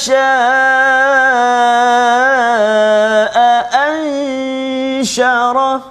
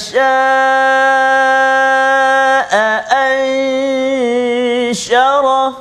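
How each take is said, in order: No difference in how they are said.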